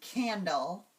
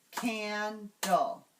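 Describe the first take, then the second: First: Said in the usual way. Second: "candle" in two separate beats, can, dle; divided into syllables. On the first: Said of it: "So let's try that". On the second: Shown as a demonstration. Teacher showing students how to clap, syllable by syllable. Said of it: "divide a word into syllables".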